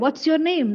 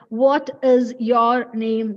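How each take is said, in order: First: What and is are merged into one syllable. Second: What and is are said as separate words. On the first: The speaker calls it right. "That's it" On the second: The speaker calls it wrong. "You should not ask anybody like"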